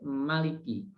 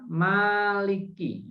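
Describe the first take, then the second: First: The first vowel is kept short. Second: The first vowel is drawn out long. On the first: "Bacanya hanya pendek" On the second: "ada pilihan. Boleh dibaca maliki"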